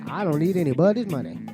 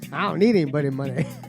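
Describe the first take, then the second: First: It is read in the speaker's plain voice. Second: It is said in a put-on boastful impression voice.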